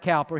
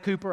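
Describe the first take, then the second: First: The first vowel sounds like 'ow' in 'cow'. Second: The first vowel sounds like 'oo' in 'too'. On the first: The speaker says it this way. "I pronounce it Cowper" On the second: Other people may say it this way. "Maybe pronounce Cooper"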